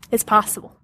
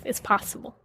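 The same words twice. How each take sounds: First: Said in the usual way. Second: Whispered. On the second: Real, not acted. Repeated affirmation, second take.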